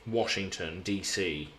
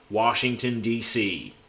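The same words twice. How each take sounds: First: Said in the usual way. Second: Washington DC in an American accent. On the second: Shown as a demonstration. Streamer showing a US viewer his American accent. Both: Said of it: "I can do quite a good American accent".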